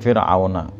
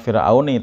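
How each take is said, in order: First: The word ends with an a vowel. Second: The word ends with an i vowel. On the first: The speaker calls it right. "tapi Fir'auna" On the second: The speaker calls it wrong. "bukan uh, ala Fir'auni"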